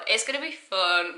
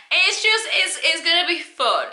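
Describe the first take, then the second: First: Said in the usual way. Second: Bright and high, louder, bubbling over; excited. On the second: Real, not acted. Host hyping viewers up for the listen-along, excited. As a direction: sell how fun this will be.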